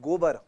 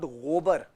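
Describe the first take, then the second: First: The first consonant is a plain stopped g. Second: The first consonant is a throaty fricative gh. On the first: The speaker calls it right. "It's गोबर" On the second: The speaker calls it wrong. "It's not गोबर"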